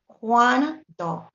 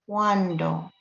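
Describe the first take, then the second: First: "Cuando" split into two beats, CUAN, do; syllable by syllable. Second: "cuando" as a whole word, slow, with a leading A; A takes the lead. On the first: Teacher showing one syllable is formed, "Cuando" broken as CUAN, do. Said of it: "one syllable is formed". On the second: Teacher showing which vowel leads, "cuando" said slowly with a strong A. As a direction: slowly say "cuando", letting the A dominate the U. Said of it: "A takes the lead, you hear". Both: Shown as a demonstration.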